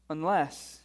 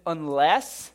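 First: Said in the usual way. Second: UNLESS thrown back loud, as a rising question; appalled, questioning UNLESS; incredulous echo. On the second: Acted. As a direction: query the word UNLESS in disbelief. Echoes the verse in disbelief.

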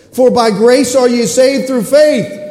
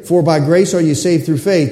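First: Loud, slow, ringing scripture; a booming verse reading; preached verse. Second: Said in the usual way. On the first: Real, not acted. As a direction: proclaim it slowly from the pulpit. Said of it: "scripture read with force". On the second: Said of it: "same verse said again".

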